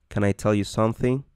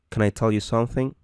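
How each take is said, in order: No difference in how they are said.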